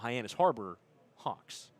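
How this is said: There is a break right after Harbor. The place is Hyannis Harbor and the team is the Hawks. "or between Harbor and Hawks"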